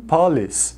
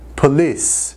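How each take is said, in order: First: The stress is on the first syllable. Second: The stress is on the second syllable. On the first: The speaker calls it wrong. "Muitas, muitas pessoas falam police" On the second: The speaker calls it right. "mas a ênfase é no lis"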